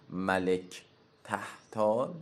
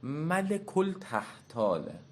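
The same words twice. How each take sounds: First: ملک تحتال said slowly, without the al; ملک تحتال read slowly, to be corrected next; first slow take of the name. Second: ملک التحتاله slow and higher, with the al clearly sounded; teacher models ملک التحتاله, deliberate and lifted; careful corrected pronunciation. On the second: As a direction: say ملک التحتاله slowly, stressing the emphatic تحتال. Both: Shown as a demonstration.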